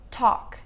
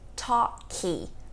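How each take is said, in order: First: The word ends on the consonant with no vowel. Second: An extra vowel is added after the final consonant. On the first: The speaker calls it right. "Falamos talk" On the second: The speaker calls it wrong. "Também não falamos talky"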